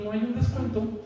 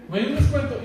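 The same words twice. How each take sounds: First: Said in the usual way. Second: Higher, louder, hopeful cheeky ask for a discount; the patient re-asking the hospital clerk for a discount, cheeky and hopeful; cheeky bargaining ask. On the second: Shown as a demonstration. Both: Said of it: "Así como lo estoy diciendo".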